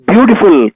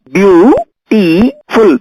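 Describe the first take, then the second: First: Said in the usual way. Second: "Beautiful" very slow, each syllable apart; syllables spelled out. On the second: Shown as a demonstration. Teacher counting syllables for the class, very slowly. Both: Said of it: "Here we have three syllables".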